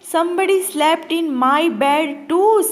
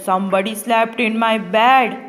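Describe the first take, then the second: First: It is said in a soft voice. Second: It is shouted in a big gruff voice.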